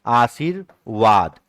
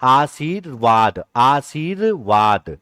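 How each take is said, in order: First: आशीर्वाद drawn out, आधा र before व; teacher sounding out आशीर्वाद; slow correct reading. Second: आशीर्वाद twice, slowly, syllable by syllable; teacher slowly repeating आशीर्वाद; slow correct reading. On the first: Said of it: "यहां आधा र है". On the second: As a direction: sound out आशीर्वाद carefully. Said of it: "लेकिन पढ़ेंगे कहां?". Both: Shown as a demonstration.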